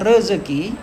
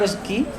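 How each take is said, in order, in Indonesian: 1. Kata ini diucapkan lengkap, tiga suku kata. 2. Kata ini diucapkan singkat, dengan lebih sedikit suku kata. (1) "yang lebih kita kenal dengan rezeki" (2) "terkadang kita ucapkan singkat aja"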